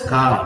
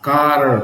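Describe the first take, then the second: First: The word ends without an R sound. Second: The word ends with a strong R sound. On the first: "Britishers pronounce as ka" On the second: "when the American uh, pronounce the word car"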